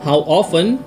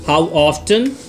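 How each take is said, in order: First: The t in 'often' is silent. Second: The t in 'often' is pronounced.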